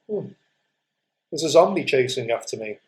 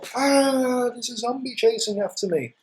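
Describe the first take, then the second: First: It is said calmly, without feeling. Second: It is said fearfully, with strong feeling.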